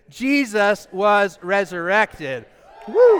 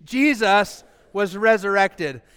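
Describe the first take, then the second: First: Excited crowd-leading cry; excited shout. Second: Slow, measured statement for all to join; deliberate group recitation; leading a recitation. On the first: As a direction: shout it slowly, then cheer. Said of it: "tell me how excited you are about that". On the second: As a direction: say it slowly so a crowd can follow. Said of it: "Say that with me". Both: Shown as a demonstration.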